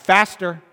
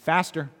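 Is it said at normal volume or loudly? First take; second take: loudly; normal. First: It is said loudly. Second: It is said at normal volume.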